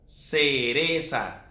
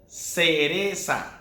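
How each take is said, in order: First: It has a Latin American s sound. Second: It has a Latin American s sound.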